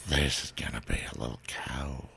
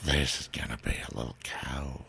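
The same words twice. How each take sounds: First: It is said in a hot, sexy voice. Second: It is said in a hot, sexy voice.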